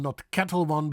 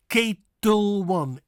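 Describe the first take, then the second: First: Said in the usual way. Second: "Ketel" with a long AY, slow and louder; Dutch pronunciation. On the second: Shown as a demonstration. Teacher modelling the vodka name correctly, slow. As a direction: say "Ketel" KAY-tel, slowly. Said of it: "but Ketel One".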